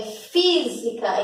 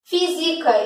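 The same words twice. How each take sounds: First: FÍSICA with a long stressed FÍ; first-syllable stress. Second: FÍSICA misstressed as fi-SI-ca; wrong stress. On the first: Teacher gives the real word, stressed first syllable. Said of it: "Por quê?". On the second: Teacher tests whether the word exists, wrong stress. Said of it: "isso aqui existe?". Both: Shown as a demonstration.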